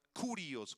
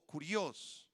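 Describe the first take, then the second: First: Said in the usual way. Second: Kurios with the stress on the O; kurios, stress on the final O; Greek kurios. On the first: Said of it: "con K y acento en la O". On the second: Shown as a demonstration. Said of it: "y acento en la O".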